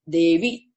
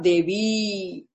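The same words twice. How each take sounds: First: The final vowel is kept short. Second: The final vowel is held long. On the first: The speaker calls it right. "it's a short Devi" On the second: The speaker calls it wrong. "not Devi"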